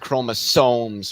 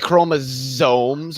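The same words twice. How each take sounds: First: The final sound is a hissing s. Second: The final sound is a buzzing z. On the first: The speaker calls it right. "it's chromosomes with an S" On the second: The speaker calls it wrong. "people say chromosomes with a Z"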